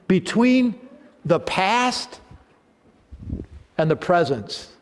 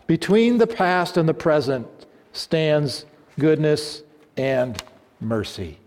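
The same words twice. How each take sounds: First: Between lifted high and hit hard, then past and present drawn out; stress on Between. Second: Said in the usual way. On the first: Acted. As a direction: lean hard on Between, land past with a rise. Preacher repeats the line emphatically.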